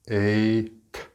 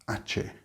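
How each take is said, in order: First: The word is pronounced the standard, unspelled way. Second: The word is pronounced the way it is spelled. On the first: The speaker calls it right. "it is ache" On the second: The speaker calls it wrong. "they try to pronounce it the way it's written, like phonetically. It is not ache"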